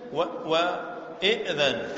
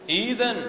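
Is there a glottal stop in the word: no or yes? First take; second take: yes; no. First: A glottal stop is pronounced before the dh. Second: The glottal stop is replaced by a long vowel. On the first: "ويجوز الهمز" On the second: "يجوز الإبدال"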